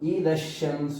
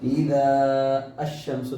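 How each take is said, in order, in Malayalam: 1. ആർട്ടിക്കിളിന് മുമ്പ് നീണ്ട സ്വരം ഒഴിവാക്കുന്നു. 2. ആർട്ടിക്കിളിന് മുമ്പ് നീണ്ട സ്വരം നിലനിർത്തുന്നു. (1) "നമ്മൾ എന്താ വായിച്ചത്?" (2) "എന്ന് വായിച്ചില്ല"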